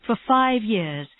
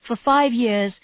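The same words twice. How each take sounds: The two takes are said the same way.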